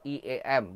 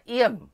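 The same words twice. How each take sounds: First: Each letter is named separately. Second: It is said as one word, iem. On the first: The speaker calls it right. "tolong I E M" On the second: The speaker calls it wrong. "jangan pernah I E M"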